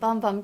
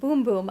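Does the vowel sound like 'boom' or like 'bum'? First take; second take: bum; boom. First: The vowel sounds like the one in 'bum'. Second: The vowel sounds like the one in 'boom'. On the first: The speaker calls it wrong. "I've been saying Bum Bum Cream, but they corrected us" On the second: The speaker calls it right. "That's how you pronounce it"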